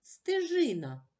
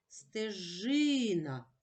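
First: Said in the usual way. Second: "Стежина" very slow, middle И held long; stress on the И. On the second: Shown as a demonstration. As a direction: stretch out the И in "Стежина". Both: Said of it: "Наголошений звук И".

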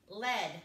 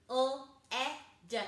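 First: Said in the usual way. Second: L E D as three separate sounds with pauses; chopped-up sounds. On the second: Shown as a demonstration. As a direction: chop L E D into its sounds, not letter names. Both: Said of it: "and chop it up".

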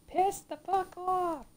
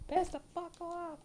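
First: Drawn out, spat slowly; slow curse. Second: Said in the usual way. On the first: Real, not acted. Gamer slowly cursing at the boss. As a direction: drag each word in anger.

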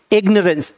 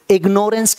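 First: इग्नोरेंस said as "IG-nuh-rence"; इग्नोरेंस with no "nore" in it; correct pronunciation. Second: इग्नोरेंस said as "ig-NORE-ence"; long o in इग्नोरेंस; mispronounced ignorance. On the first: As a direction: say इग्नोरेंस with a short, weak middle syllable. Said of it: "इसकी pronunciation सही समझ में". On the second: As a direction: say इग्नोरेंस with a full "nore" in the middle. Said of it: "कभी मत बोलना". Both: Shown as a demonstration.

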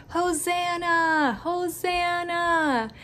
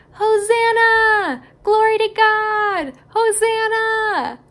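First: Gentle cheer. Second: Higher, louder, slow cheer; joyful yell. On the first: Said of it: "they yelled, and they shouted". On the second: Crowd hailing Jesus on his donkey, slow joyful yell. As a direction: shout it like the crowd at the gate. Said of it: "they yelled". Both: Acted.

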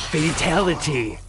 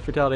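First: Slow game-announcer call; Mortal Kombat. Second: Said in the usual way. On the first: Acted. Gamer calling the boss's gory finish, announcer imitation. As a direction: draw it out like a fighting-game announcer. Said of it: "Mortal Kombat fatality". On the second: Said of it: "this is straight up gonna be".

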